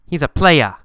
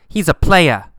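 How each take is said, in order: No difference in how they are said.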